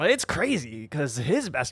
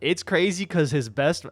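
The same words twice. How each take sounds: First: It is said in an imitated, put-on voice. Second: It is said in his ordinary speaking voice. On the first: The speaker calls it right. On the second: The speaker calls it wrong.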